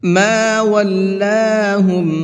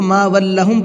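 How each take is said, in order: First: The vowel after the L is drawn out long. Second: The vowel after the L is kept short. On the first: The speaker calls it right. "यहाँ लाम को खींच करके पढ़ेंगे" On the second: The speaker calls it wrong. "अक्सर लोग इसमें यह गलती करते हैं"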